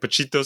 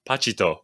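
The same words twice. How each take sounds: First: The name is pronounced in a Spanish-sounding way. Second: The name is pronounced in a Japanese-sounding way. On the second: "probably maybe the Japanese pronunciation"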